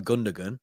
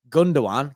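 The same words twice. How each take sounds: First: Gundogan as "GUN-duh-gun"; hard second g in Gundogan; common mispronunciation. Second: Gundogan as "GOON-do-wan"; correct pronunciation. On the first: Retold or imitated. Quoting what people call him, mispronounced. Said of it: "people call him". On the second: Shown as a demonstration. Host naming who could have beef, correct pronunciation. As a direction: say Gundogan with a w, no second g. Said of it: "cause people call him Gundogan".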